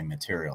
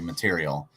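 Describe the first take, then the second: First: It is said as material, ending in an 'ial' sound. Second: It is said as materiel, ending in an 'el' sound. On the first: It means a substance things are made of. "as in like metal is a material" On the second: It means military equipment. "the material is military material"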